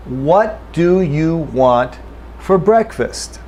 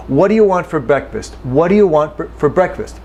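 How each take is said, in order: First: Slow, careful full form; deliberate textbook reading. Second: Quick, with "do" and "you" reduced; relaxed everyday speech; normal reduced speed. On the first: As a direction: say each word slowly and fully. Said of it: "Let me say it slowly". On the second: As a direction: say it at natural speed, run it together. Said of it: "This is normal speed". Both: Shown as a demonstration.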